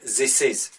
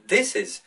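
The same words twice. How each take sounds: First: The th is pronounced as a z sound. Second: The th is pronounced as a d sound. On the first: The speaker calls it wrong. "or z, like in this is" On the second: The speaker calls it right. "replace them with t and d"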